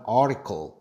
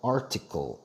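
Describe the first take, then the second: First: It is said smoothly with a heavily curled tongue. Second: Each sound is pronounced carefully and clearly. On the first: This is the western American way of speaking. "서부 지역은... 발음을 좀 쉽고 편하게... article 이렇게 발음을 하죠" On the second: This is the eastern American way of speaking. "동부 쪽 발음은 정말 올바른 정직한 발음을 해요... 또박또박하게"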